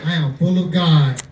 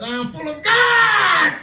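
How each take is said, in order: First: It is said calmly, without extra enthusiasm. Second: It is said with much more enthusiasm.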